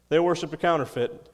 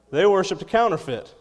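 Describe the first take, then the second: First: Said in the usual way. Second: "counterfeit" hit higher and louder; emphatic. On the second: Shown as a demonstration. Preacher drives home Israel's sin, emphatic and raised. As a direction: land hard on "counterfeit".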